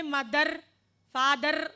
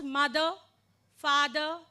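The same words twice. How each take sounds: First: "mother, father" with the final R rolled out; awkward sounded R. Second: "mother, father" ending in a plain vowel; silent final R. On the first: Teacher shows the awkward way, "mother, father" with rolled final R. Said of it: "It sounds so awkward". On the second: Teacher shows R is unheard, "mother, father" without final R. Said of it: "can you listen to the R sound?". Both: Shown as a demonstration.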